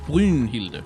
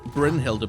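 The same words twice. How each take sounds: First: The first vowel is said with tightly pursed lips. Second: The first vowel is said with spread, unrounded lips. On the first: The speaker calls it right. "but Bryn Brynhilde. If you want to pronounce it in Danish" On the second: The speaker calls it wrong. "not Bryn Brynhilde"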